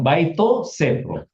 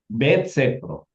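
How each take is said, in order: First: The first word ends in an extra vowel. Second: The first word is short without a final vowel. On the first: The speaker calls it wrong. "Bukan bukan" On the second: The speaker calls it right. "dibuang olahnya"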